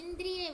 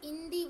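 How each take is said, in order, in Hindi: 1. बीच में 'dr' संयुक्त व्यंजन है। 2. बीच में सादा 'd' ध्वनि है। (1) "इंद्रिय बोल दिया था" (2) "इंदी बोलना है"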